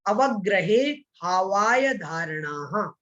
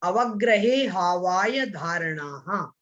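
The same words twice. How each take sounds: Both takes have the same delivery.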